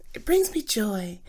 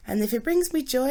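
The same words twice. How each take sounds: First: Whispered to herself. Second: Said in the usual way. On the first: Real, not acted. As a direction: murmur "It brings me joy" as a secret reassurance. Self-talk, repeated phrase.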